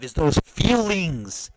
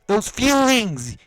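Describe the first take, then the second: First: Feelings drawn out slowly and leaned on; slow stress on feelings. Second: Slow, louder, higher shout of Those feelings; shouted emphasis. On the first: Ranting at the boxer, slow stress on feelings. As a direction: slowly press the word feelings. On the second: Ranting at the boxer, real angry shout. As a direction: yell Those feelings, word by word. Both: Real, not acted. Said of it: "Ah, I'm sorry, guys".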